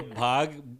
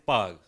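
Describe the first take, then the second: First: The word begins with a breathy bh sound. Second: The word begins with a p-like sound.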